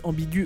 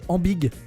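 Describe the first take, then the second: First: The u vowel is sounded after the g. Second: The word ends on the g sound. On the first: The speaker calls it right. "c'est le E qui a le tréma pour prononcer le U derrière" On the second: The speaker calls it wrong. "Sinon, on prononcerait ambig"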